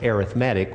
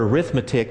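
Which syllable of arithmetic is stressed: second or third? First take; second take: third; second. First: The stress is on the third syllable. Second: The stress is on the second syllable. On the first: The word is used as an adjective. "It's pronounced arithmetic when it's an adjective" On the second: The word is used as a noun. "pronounced that way when it's a noun"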